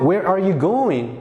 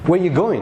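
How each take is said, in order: First: The word 'are' is fully pronounced. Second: The word 'are' is dropped entirely.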